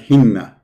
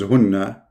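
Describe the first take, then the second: First: The first vowel is a front 'i' sound. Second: The first vowel is a rounded 'u' sound. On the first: The speaker calls it wrong. "When you put kasra, that will make it hinna" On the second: The speaker calls it right. "the correct reading is hunna"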